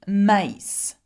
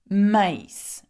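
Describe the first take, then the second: Both takes have the same delivery.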